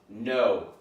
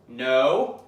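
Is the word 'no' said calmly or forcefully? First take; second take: calm; forceful. First: The word is said in a lower, calmer tone. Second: The word is said loudly with strong force. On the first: It de-escalates as the dog calms down. "you say at a lower tone" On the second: It corrects the dog sharply. "you give it a little more oomph"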